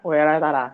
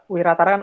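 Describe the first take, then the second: First: The first vowel sounds like 'eh'. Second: The first vowel sounds like 'ee'. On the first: The speaker calls it wrong. "artikulasinya rada meleset kayak Weratara" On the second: The speaker calls it right. "Wiratara kan"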